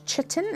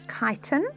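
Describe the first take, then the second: First: The word begins with a 'ch' sound. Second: The word begins with a 'k' sound. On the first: The speaker calls it wrong. "It's not chitin" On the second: The speaker calls it right. "it's chitin"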